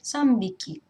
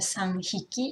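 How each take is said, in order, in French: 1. Le compteur commence par un son b. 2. Le compteur commence par un son h.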